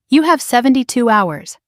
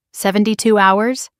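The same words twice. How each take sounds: First: "seventy-two hours" as a firm falling statement. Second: "Seventy-two hours" lifted into a rising question; echoed question. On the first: Narrator giving her sister an ultimatum, "seventy-two hours" falling. Ultimatum later echoed as question. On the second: Sister echoing the ultimatum, "Seventy-two hours" rising. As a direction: toss back "Seventy-two hours" with an upward ending. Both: A narrator's reading.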